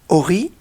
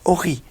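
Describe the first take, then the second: First: The stress is on the last syllable. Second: The stress is on the first syllable. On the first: It means my light. "quand je vais appuyer sur Ri plutôt que sur O" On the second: It is a command to shine. "c'est un verbe... un impératif d'éclairer"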